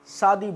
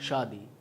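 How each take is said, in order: First: It begins with a plain s sound. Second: It begins with an sh sound. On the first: The speaker calls it wrong. "ये गलत है।" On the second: The speaker calls it right. "सही क्या है?"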